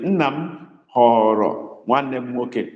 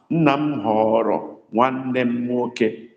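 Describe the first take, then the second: First: Nna m họrọ nwanne m nwoke said slowly, word by word; slow dictation. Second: Nna m họrọ nwanne m nwoke said slowly, every word set apart; slow it right down for them; slow dictation. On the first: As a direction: spell it out slowly for writing. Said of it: "Write it the way I said it". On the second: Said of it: "understand the sound". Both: Shown as a demonstration. Teacher dictating to students, slow and clear.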